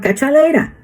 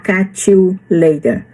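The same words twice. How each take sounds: First: The word 'you' is reduced to 'ya'. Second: The word 'you' is pronounced fully and clearly. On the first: The speaker calls it right. "Eles falam catch you later" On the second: The speaker calls it wrong. "ninguém vai falar catch you later"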